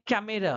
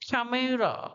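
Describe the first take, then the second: First: The k sound is plain, without a puff of air. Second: The k sound has a strong puff of air. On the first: This is how we usually say it. "हम लोग बोलते हैं" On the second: This is how they say it. "वो लोग क्या बोलते हैं?"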